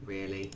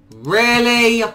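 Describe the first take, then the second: First: Low, soft disbelief to himself; muttered. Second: High, loud indignant question; outraged. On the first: Gamer eyeing a bad loot drop, low mutter. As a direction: grumble it under the breath. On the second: Gamer outraged at the gift, loud indignant question. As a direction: throw it back in disbelief. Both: Real, not acted.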